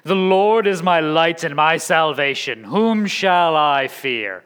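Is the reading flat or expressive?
flat. It is read flatly, the question not sounding like one.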